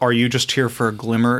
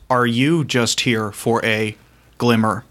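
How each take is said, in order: First: It is said in the speaker's ordinary voice. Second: It is said in a put-on imitated voice.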